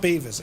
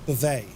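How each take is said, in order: First: The name is said like 'Beavis'. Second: The name is said like 'Bo-vay'. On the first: The speaker calls it wrong. "It's not Beavis" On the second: The speaker calls it right. "it's Beauvais"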